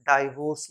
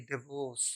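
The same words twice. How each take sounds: First: डाइवोर्स said "DYE-vorse"; long "eye" in the first syllable of डाइवोर्स; wrong pronunciation. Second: डिवोर्स said "di-VAWS", softer; short "di" opening in डिवोर्स; correct pronunciation. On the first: (डाइवोर्स, "डाइ" वाला गलत उच्चारण) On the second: (डिवोर्स में छोटा "डि") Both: Shown as a demonstration. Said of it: "डाइवोर्स नहीं".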